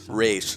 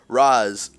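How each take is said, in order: First: The name is said differently from the film trilogy. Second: The name is said as in the film trilogy. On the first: It corrects the name to the proper version. The speaker calls it right. "I mean, Ra's" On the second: It pokes fun at the films' version of the name. The speaker calls it wrong. "he starts off as Ra's"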